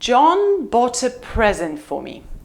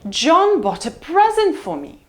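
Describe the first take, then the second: First: The pitch falls low on 'present'. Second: The pitch falls from high on 'present'. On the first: "It's a low fall" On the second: "Let's try high fall"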